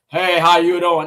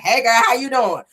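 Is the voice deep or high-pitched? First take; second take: deep; high-pitched. First: It is said in a deep voice. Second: It is said in a high-pitched voice.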